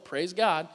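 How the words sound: It is said in a grudging, passive-aggressive way. The healing feels less impressive because a person was involved.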